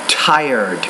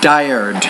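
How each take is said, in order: First: The T is said with a strong puff of air. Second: The T is said with little air. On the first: The speaker calls it right. "pronounce the T with more air, with more aspiration" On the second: The speaker calls it wrong. "not tired"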